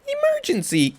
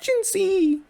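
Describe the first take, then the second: First: It is said in a low, deep voice. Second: It is said in a high, Mickey Mouse-like voice.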